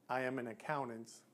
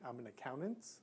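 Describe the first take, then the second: First: The voice falls at the end. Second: The voice rises at the end. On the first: The speaker is sure of what they say. The speaker calls it right. "don't end with a question mark when you're making a statement" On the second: The speaker sounds unsure, as if asking. The speaker calls it wrong. "are you not sure what you are?"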